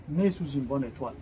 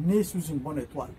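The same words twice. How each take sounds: The two takes are said the same way.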